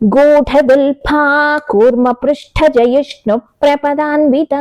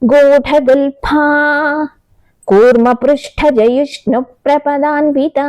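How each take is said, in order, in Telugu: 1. మొత్తం పాదాన్ని ఎలాంటి విరామం లేకుండా చదువుతారు. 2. మొదటి పదం తర్వాత చిన్న విరామం ఉంది. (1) "అస్సలు విరామం తీసుకోకుండా మొత్తం పాదం పఠించేశాం" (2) "గూఢగుల్ఫా దగ్గర కొంత ఒక్క సెకండ్ విరామం తీసుకుని"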